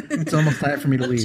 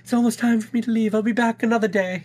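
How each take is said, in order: First: Distant, off-mic voice; laughing from across the room; far from mic. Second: High mock echo. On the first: Real, not acted. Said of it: "'cause I'm away from the mic". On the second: Mocking the line in a voice.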